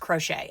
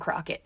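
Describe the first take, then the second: First: The name ends with a 'shay' sound. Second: The name ends with a 'kit' sound. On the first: This is the name's proper pronunciation. "Yes, Crochet, I get it" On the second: This is a playful nickname. "but I'm gonna call him Crockett"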